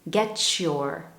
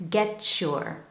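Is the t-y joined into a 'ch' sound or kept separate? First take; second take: ch sound; ch sound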